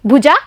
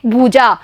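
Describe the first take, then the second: First: भुजा with a short clipped u; short u in bhuja. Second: भुजा with the u held a little longer; long u in bhuja. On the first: Teacher showing children the short vowel in भुजा. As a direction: say भुजा with a quick short ऊ sound. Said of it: "इसका उच्चारण हम करेंगे भुजा". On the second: Teacher showing children the long vowel sound. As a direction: stretch the ऊ in भुजा slightly. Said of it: "इसकी ध्वनि हम थोड़ी बड़ी लेंगे". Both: Shown as a demonstration.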